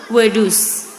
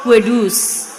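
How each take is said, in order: The two takes are said the same way.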